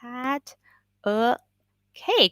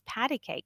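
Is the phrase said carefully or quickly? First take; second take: carefully; quickly. First: The phrase is said carefully with each word clear. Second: The phrase is said quickly with the middle reduced. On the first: "So it's pat a cake" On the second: "when you say it fast, it's patty cake"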